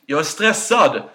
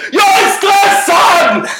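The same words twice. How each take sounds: First: Said in the usual way. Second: High, slow, exasperated yell; frustrated shout. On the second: Retold or imitated. To his mom who can't hear him, a slow frustrated shout. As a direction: finally bellow it into the phone. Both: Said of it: "Varför skriker du?".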